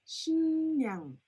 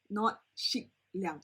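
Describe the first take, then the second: First: It has a nasal ng followed by an n sound. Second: It has a hard k followed by an r sound. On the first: The speaker calls it right. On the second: The speaker calls it wrong.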